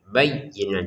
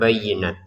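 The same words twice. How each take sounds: First: The doubled y sound is pressed and held. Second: The doubled y sound is short and light. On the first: The speaker calls it right. "di sini kita tekan ya-nya" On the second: The speaker calls it wrong. "jangan sekedar bayyinat"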